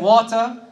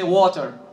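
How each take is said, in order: First: It is said in a British accent. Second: It is said in an American accent. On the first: "British, they say water" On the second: "American, they say water"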